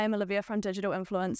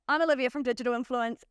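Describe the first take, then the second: First: The voice is flat and monotone. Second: The voice is lively and engaging. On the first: The speaker calls it wrong. "I'm not going to go" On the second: The speaker calls it right. "that's a whole lot more engaging than being a little bit monotone"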